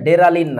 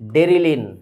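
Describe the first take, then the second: First: The second vowel sounds like 'a'. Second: The second vowel sounds like 'i'. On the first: The speaker calls it wrong. "উচ্চারণটা হচ্ছে ডেরালিন না" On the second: The speaker calls it right.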